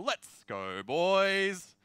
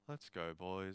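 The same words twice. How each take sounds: First: It is said with lively, energetic inflection. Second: It is said flatly, with little energy.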